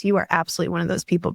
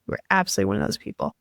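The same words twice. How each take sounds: First: Said in the usual way. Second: Fast whispered echo of a compliment; hushed whisper. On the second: Real, not acted. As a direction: breathe it again quickly as an aside. Repeated compliment, second take hushed.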